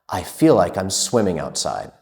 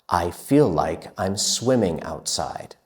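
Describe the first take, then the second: First: The sentence is said at a very quick pace. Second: The sentence is said at a somewhat quicker pace. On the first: "even faster" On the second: "a little bit faster"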